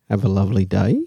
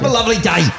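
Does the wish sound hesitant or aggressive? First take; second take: hesitant; aggressive. First: The wish sounds unsure and hesitant. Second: The wish sounds forceful and aggressive.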